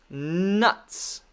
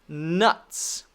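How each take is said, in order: No difference in how they are said.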